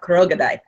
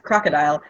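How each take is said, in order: First: The word is said in an Ethiopian accent. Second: The word is said in a plain English accent.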